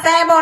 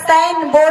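First: The word is clipped to two short syllables. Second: The word is said fully as two words. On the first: The speaker calls it wrong. "यहाँ पर सैबो नहीं" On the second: The speaker calls it right. "यहाँ पर साइन बोर्ड है"

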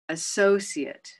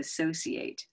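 First: The word ends with a short, reduced 'it' sound. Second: The word ends with a full 'ate' sound. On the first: It is a noun: a partner or colleague. "this is the noun form" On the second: It is a verb: to connect or link. "the verb form can change a little to associate"

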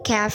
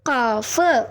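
First: The vowel is an open 'ah' sound. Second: The vowel is a rounded 'oh' sound. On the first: The speaker calls it wrong. "കാഫ് എന്ന് പറയരുത്" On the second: The speaker calls it right.

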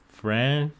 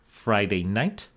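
First: It shrinks to one syllable with a nasal vowel. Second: Both words are said in full, clearly.

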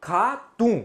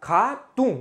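The two takes are said the same way.

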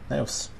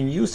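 First: The word is pronounced like 'nevs'. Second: The word is pronounced like 'nyoos'. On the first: The speaker calls it right. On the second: The speaker calls it wrong. "Но не Ньюс ведь"

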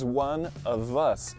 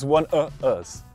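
First: The V sound of 'of' is pronounced. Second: The V sound of 'of' is dropped. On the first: The speaker calls it right. "Eu não posso omitir esse som do V" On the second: The speaker calls it wrong. "E eu não posso simplesmente dizer he's one of us"

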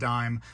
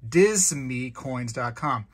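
First: The word is pronounced like 'dime'. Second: The first word is not pronounced like 'dime'. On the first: The speaker calls it right. "It's probably actually pronounced dime" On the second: The speaker calls it wrong. "I'm probably saying it wrong"

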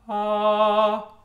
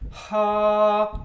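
First: The vowel starts cleanly without breath or edge. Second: Breathy air is heard before the vowel starts. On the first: "a coordinated onset, where the voice and the air start at the same time" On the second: "an aspirate, ... where the air starts early"

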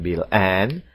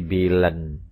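First: The word 'and' is pronounced in full. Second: The word 'and' is reduced and linked. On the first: "Mereka tidak bilang" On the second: "tapi Billen"

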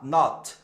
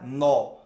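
First: The vowel sounds like an open ah. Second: The vowel sounds like a rounded oh. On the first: The speaker calls it right. "ele é um A" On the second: The speaker calls it wrong. "não é no"

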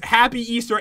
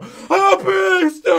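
First: It is said at a normal volume. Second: It is screamed very loudly.

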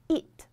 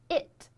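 First: The vowel is a tense ee, like pinyin yi. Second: The vowel is a short, lax English i.

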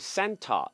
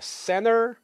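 First: The T after N is pronounced. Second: The T after N is dropped. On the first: "영국에서는 당연히 center 이렇게 발음하는" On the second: "미국에서는 center이라고 발음을 많이 하죠"

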